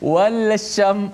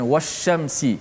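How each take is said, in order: First: The L is pronounced clearly before the SH. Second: The L merges into the following SH sound. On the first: The speaker calls it wrong. "kalau kena baca dengan izhar juga" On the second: The speaker calls it right. "senang kita baca"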